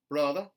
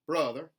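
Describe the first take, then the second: First: The R sound is dropped. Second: The R sound is lightly pronounced. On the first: "a general Southern dropped R" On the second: "a contemporary Southern, where those R colorations are put back in"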